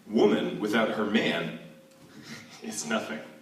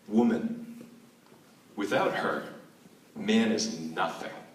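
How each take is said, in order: First: It pauses after man, grouping woman with her man. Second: It pauses after woman and after her. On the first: Woman is nothing without man. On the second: Man is nothing without woman. "That's the first"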